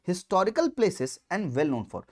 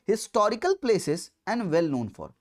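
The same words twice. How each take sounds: The two takes are said the same way.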